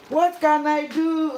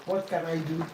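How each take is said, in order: First: "What can I do?" cried high and loud; loud, high, helpless "What can I do?"; exasperated cry. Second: Said in the usual way. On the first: Real, not acted. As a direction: throw up your hands and wail "What can I do?". Second take, loud and high.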